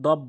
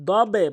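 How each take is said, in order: First: "দব" cut shut on the B; closed ending on "দব"; common mistake. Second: "দবে" with B released in a short echo; slow, firm "দবে" with released B; correct bounce. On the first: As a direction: say "দব" with no bounce after the final B. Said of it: "এখানে অধিকাংশ লোক দব বলে". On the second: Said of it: "দবে বলতে হবে". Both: Shown as a demonstration.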